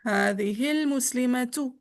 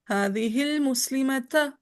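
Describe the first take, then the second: First: The final word ends with a u vowel. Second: The final word ends with an a vowel. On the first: The noun is in the nominative case. "रफा भी" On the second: The noun is in the accusative case. "नस्बी"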